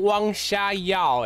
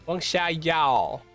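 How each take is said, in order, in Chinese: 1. 它带着英文腔。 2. 它用的是标准普通话声调。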